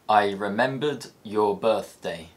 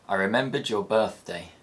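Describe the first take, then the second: First: The final d of remembered stays unchanged. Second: The final d of remembered becomes another sound.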